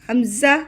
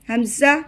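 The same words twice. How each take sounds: Both takes have the same delivery.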